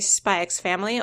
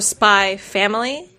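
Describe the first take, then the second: First: The X is said as the letter name. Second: The X is left out completely. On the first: "I pronounce the X" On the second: "the claim is it's supposed to be silent"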